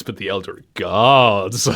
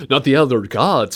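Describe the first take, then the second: First: Gods lowered and stretched very long; slow, lingering weight on Gods; emphasis on GODS. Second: Said in the usual way. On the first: Shown as a demonstration. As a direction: draw Gods out with mock grandeur. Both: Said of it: "emphasis on the word gods".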